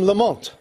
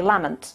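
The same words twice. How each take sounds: First: Lamont said "la-MONT"; later anglicised pronunciation. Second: Lamont said "LAMM-ent"; Scottish pronunciation of surname. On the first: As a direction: stress Lamont on the second syllable. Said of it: "it became Lamont". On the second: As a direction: stress Lamont on the first syllable. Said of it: "most Scots would say Lamont". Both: Shown as a demonstration.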